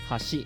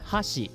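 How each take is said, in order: First: The emphasis is on the second syllable. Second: The emphasis is on the first syllable. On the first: It means bridge. "if like the second syllable is emphasized" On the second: It means chopsticks. "I think that's chopsticks"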